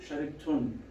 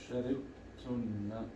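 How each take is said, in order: First: The word ends on 'n' with no vowel. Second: The word ends with a vowel after 'n'. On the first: The speaker stops after this word. "if I want to be accurate, I say sharibtun" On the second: The final letter is made clear. "just to make the noon clear"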